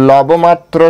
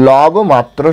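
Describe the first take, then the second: No difference in how they are said.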